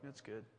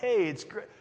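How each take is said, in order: First: It sounds flat, with no enthusiasm. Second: It sounds cheerful, with faked enthusiasm.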